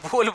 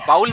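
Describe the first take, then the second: First: The vowel sounds like 'oh' in go. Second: The vowel sounds like 'ow' in cow. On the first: The speaker calls it right. "इसको बोल बोलेंगे" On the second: The speaker calls it wrong. "बाउल नहीं बोलेंगे"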